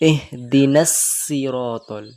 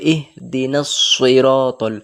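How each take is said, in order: First: The s sound is light and thin. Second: The s sound is heavy with rounded lips. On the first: The speaker calls it wrong. "সিন পড়লে এভাবে পড়তাম" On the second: The speaker calls it right. "সদ আছে ওই জন্য এইভাবে পড়তে হবে"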